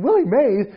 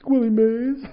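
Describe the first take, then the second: First: High, loud incredulous echo; coach. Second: Put-on high, timid kid's answer; small hopeful question. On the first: Retold or imitated. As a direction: throw the name back in disbelief. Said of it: "And he said".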